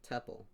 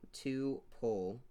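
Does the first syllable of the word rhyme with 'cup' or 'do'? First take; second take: cup; do. First: The first syllable rhymes with 'cup'. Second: The first syllable sounds like 'two'. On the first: "others pronounce it like tuple. Rhymes with couple" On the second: "Some people pronounce it like two-pole"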